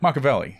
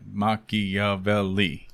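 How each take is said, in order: First: The stress falls on the first syllable. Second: The stress falls on the 'vel' syllable. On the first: The speaker calls it wrong. "what's the other way of saying it?" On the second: The speaker calls it right. "It's five syllables, right?"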